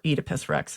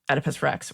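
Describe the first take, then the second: First: Oedipus is said in a British way. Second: Oedipus is said in a non-British way.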